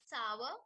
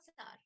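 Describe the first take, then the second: First: The word has a W-like glide in the middle. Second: The word has no W-like glide in the middle. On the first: The speaker calls it right. "like you have to pronounce it just like a W would be" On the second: The speaker calls it wrong. "not sour"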